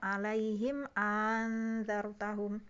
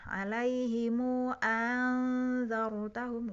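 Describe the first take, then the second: First: The m is closed with no following vowel. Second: The m is followed by a long u vowel. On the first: "mensukunkan mim jamak" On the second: "mimnya tadi mim jamaknya di silah ya, dipanjangkan dua rokat"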